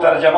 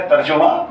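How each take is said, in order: First: ترجمہ with short a after j; correct tarjama. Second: ترجمہ with short u after j; wrong tarjuma. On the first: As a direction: say ترجمہ as tar-ja-ma, every vowel an a. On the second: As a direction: say ترجمہ as tar-ju-ma, the mistaken form. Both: Shown as a demonstration. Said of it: "ترجمہ نہیں ہوتا ہے".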